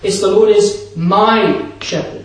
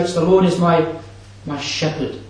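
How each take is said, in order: First: The stress is on "my". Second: The stress is on "shepherd".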